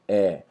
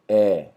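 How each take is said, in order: No difference in how they are said.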